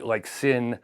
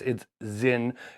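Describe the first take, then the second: First: The word begins with an S sound. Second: The word begins with a Z sound. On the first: The speaker calls it wrong. "I know I'm mispronouncing that" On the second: The speaker calls it right. "is how you would pronounce it"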